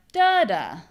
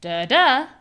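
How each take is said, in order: First: Da DA, slow with the second beat strong; slow da DA, stress at the end. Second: First DA louder and higher; DA da, first beat strong; stress on first da. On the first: Teacher contrasting the second-beat rhythm. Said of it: "or da da". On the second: Teacher showing stress on the first beat. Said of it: "You either hear". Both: Shown as a demonstration.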